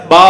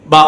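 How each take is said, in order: First: பா with the vowel stretched long; பா said wrongly as a long baa; drawn-out vowel. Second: பா cut short, vowel not stretched; பா with a brief, unheld vowel. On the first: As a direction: hold the aa in பா too long. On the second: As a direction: say பா as a quick short ba. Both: Shown as a demonstration. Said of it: "இதை நீட்டி சொல்லக்கூடாது".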